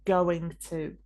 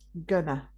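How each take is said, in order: First: Both words are said fully and separately. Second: The two words are shortened into one. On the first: "we don't usually say going to" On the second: "It's often shortened to gonna"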